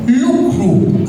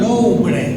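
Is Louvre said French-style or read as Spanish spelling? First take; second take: French-style; Spanish spelling. First: It is said in a French-like way. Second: It is read letter by letter as Spanish. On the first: The speaker calls it right. "así se pronuncia" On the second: The speaker calls it wrong. "pero no se pronuncia así"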